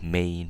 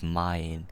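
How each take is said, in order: First: The vowel does not sound like 'eye'. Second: The vowel sounds like 'eye'. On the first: The speaker calls it wrong. "Not mein" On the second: The speaker calls it right. "An E I in German is pronounced as A I"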